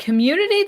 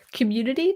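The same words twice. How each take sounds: First: Louder, higher scornful repeat; higher mocking question. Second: Scornful rising question; mocking question. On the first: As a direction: sneer it again, pitched up. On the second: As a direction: sneer the word as a question. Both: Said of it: "Final Fantasy says".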